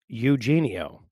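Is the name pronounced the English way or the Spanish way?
English. The name is said with English sounds. "on paper is Eugenio"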